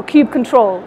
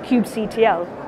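First: Kubectl pronounced "kube control"; ending as word. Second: Kubectl said as "kube C T L"; spelled-out ending. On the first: Offering the audience another pronunciation, kubectl as "kube control". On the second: Explaining the tool's name to an audience, kubectl with spelled-out C-T-L. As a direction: say kubectl as "kube" then the letters C, T, L. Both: Shown as a demonstration. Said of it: "depending how you want to pronounce it".

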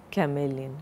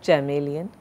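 First: CHAMELEON with a hard K, lower and softer; ka-MEE-lee-un, k sound starting chameleon; correct chameleon. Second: CHAMELEON with CH as in chair; cha-MEE-lee-un, a ch sound starting chameleon; wrong chameleon. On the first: Teacher correcting the word, chameleon begun with a k sound. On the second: Teacher showing the error, chameleon begun with a ch sound. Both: Shown as a demonstration. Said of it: "It's not chameleon".

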